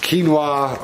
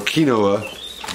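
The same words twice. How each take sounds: First: The word is said the usual way. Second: The word is sounded out letter by letter.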